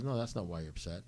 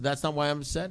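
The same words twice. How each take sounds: First: Softer, quicker retold sponsor reply; calm contradiction. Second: Higher-pitched retold objection; indignant protest. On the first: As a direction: quietly refuse to agree. Sponsor calmly contradicts him. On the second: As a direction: protest in mild disbelief. He protests to his sponsor.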